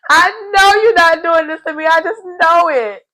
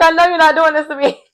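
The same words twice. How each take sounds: First: Hammed-up high tearful wail; mock wailing disbelief. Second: High-pitched mock dismay; mock disbelief. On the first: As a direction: cry it out in mock betrayal. Hammed-up repeat of Paul's dismay. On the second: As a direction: act stunned and betrayed, pitched high. Acting Paul's shocked disbelief.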